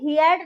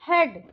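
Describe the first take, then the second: First: A separate a vowel is heard. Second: No separate a vowel is heard. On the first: The speaker calls it wrong. "हेड नहीं बोलेंगे, ए का pronounce नहीं आएगा" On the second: The speaker calls it right. "हम इसको बोलेंगे हेड"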